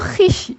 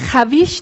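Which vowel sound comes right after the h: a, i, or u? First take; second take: i; a. First: An i sound follows the h directly. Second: An a and v sound follow the h. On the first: The speaker calls it right. "Bunu hiş" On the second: The speaker calls it wrong. "Huiş veya haviş diye okumuyoruz"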